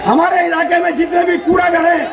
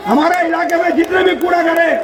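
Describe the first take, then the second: No difference in how they are said.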